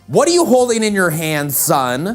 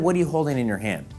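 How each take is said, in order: First: It is said with a clear emotional tone. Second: It is said flatly, with no emotion.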